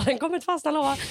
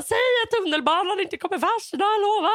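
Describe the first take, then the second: First: Said in the usual way. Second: High, insistent child-like plea, retold; reenacted panicky begging; anxious pleading. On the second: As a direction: beg for a promise, pitched right up. Retells anxious plea to mother.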